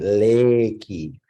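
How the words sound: It is said with a Japanese pronunciation. "in Japanese they call it Reiki"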